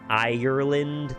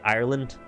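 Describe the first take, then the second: First: Nasal, with every syllable fully sounded. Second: The second syllable is rolled over quickly. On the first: Americans say it this way. "they kind of nasal it and go all the way through the syllables" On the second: Irish people say it this way. "They just kind of roll over the second syllable"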